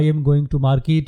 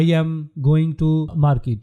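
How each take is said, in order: First: "I am going to market" said slowly and evenly; slow example sentence. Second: Spoken slowly with a pause after "I am"; "going to market" drawn out word by word; slow example sentence. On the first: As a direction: lay out each word of "market" unhurried. (آہستہ بولا گیا مثال کا جملہ) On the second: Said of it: "For example". (آہستہ آہستہ بولا گیا مثال کا جملہ) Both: Shown as a demonstration.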